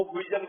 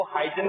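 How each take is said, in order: First: हुइजन said as hui-jan, with an oo-ee start; pronounced Huijan. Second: हाइजन said as hai-jan, with a j sound; pronounced Haijan. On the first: Teacher gives the class the native way, hui-jan. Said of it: "कुछ लोग इसको हुइजन बोलते हैं". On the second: Teacher tells the class one way to say the name, hai-jan. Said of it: "कुछ लोग इसको हाइजन बोलते हैं". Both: Shown as a demonstration.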